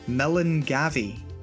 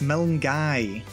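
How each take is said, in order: First: The V sound is pronounced in the name. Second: The V sound is silent in the name. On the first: The speaker calls it wrong. "If you think it's pronounced Milngavie, you might be wrong" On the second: The speaker calls it right. "The N's practically silent. The V is basically silent"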